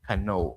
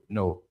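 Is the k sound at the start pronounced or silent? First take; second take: pronounced; silent. First: The k is pronounced before the n. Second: The k is silent; it starts with n. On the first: The speaker calls it wrong. "how do usually students say this word?" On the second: The speaker calls it right. "the correct pronunciation of the words that begin with, with the combination of K and N"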